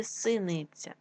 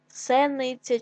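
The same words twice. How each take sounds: First: Said in the usual way. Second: Сениця with е instead of и; wrong variant Сениця, first vowel е; е in first syllable. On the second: Shown as a demonstration. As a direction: say Сениця with open e after С. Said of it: "нам потрібно вставити або".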